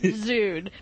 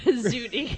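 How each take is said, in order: First: The word is said with one syllable. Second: The word is said with two syllables. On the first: "as opposed to Zune" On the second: "even if I pronounce Zuni"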